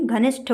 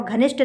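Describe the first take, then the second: First: घनिष्ठ ending in aspirated ṭh; correct pronunciation. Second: घनिष्ठ ending in unaspirated ṭ; wrong pronunciation. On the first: Teacher gives the right ending, aspirated ṭh. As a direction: puff air on the last sound of घनिष्ठ. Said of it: "टा और ठा में यही difference". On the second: Teacher shows the wrong ending, unaspirated ṭ. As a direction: drop the breath from the ṭh of घनिष्ठ. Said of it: "घनिष्ठ नहीं". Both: Shown as a demonstration.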